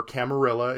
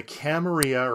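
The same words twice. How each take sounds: First: Camarilla with the double L as a plain English L; anglicized pronunciation. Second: Camarilla with a Spanish y-sound for the double L; Spanish pronunciation. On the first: Aside for non-Spanish speakers, Camarilla with an English L sound. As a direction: say Camarilla as English spelling reads. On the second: Convention organizer naming the group, Camarilla said the Spanish way. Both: Shown as a demonstration. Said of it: "if you don't know how to pronounce Spanish words".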